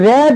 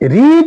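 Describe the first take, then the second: First: The vowel is short, as in red. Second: The vowel is long, as in reed. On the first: It is the past participle form. "এটার উচ্চারণ রেড" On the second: It is the present tense form. "এটার উচ্চারণ হয়েছে রিড"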